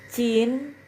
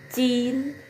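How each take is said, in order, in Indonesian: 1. Kata ini diawali bunyi mirip c. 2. Kata ini diawali bunyi mirip c.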